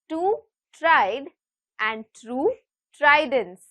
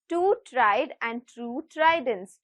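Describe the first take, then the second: First: It is said at a slower, normal pace. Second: It is said at a faster pace. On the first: "I will repeat" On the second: "I would like to say this a little faster"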